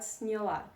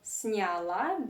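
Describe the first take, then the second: First: The first vowel is reduced, between 'ye' and 'i'. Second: The first vowel is a full, clear 'ya'. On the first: The speaker calls it right. "something in between ye and i" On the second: The speaker calls it wrong.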